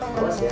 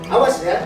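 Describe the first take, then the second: First: It is said in a gentle, friendly tone. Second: It is said in a harsh, stern tone. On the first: The warning comes from a friend. The speaker calls it right. "ketika menjadi seorang teman" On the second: The warning comes from a punisher. The speaker calls it wrong. "kalau sebagai penghukum"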